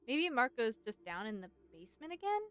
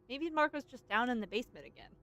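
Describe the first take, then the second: First: The voice rises at the end like a question. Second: The voice falls at the end like a statement.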